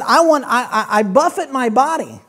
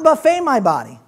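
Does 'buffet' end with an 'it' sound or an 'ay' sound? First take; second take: it; ay. First: Buffet ends with an 'it' sound. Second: Buffet ends with an 'ay' sound. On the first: He strikes and disciplines his body. The speaker calls it right. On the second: He feeds his body at an all-you-can-eat meal. The speaker calls it wrong. "not buffet my body. That's an American gospel"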